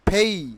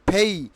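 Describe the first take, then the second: First: The first p has a strong puff of air. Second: The first p has a strong puff of air.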